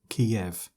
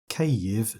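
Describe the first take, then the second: First: The city's name is said as 'Kiev'. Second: The city's name is said as 'Kyiv'. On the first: The speaker calls it wrong. "not not Kiev" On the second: The speaker calls it right. "It should be pronounced as Kyiv"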